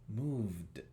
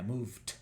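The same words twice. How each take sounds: First: The word ends with a voiced d sound. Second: The word ends with a voiceless t sound. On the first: The speaker calls it right. "Y esto es moved, moved, d" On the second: The speaker calls it wrong. "Si hubiera sido una T, esto sería moved"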